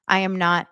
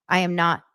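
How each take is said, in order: Both takes have the same delivery.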